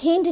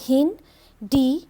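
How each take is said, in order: First: The D is blended into one syllable. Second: The D is said as a separate letter. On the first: The speaker calls it wrong. "हिंड नहीं बोलेंगे" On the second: The speaker calls it right. "हम लोग कहेंगे हिन डी टू"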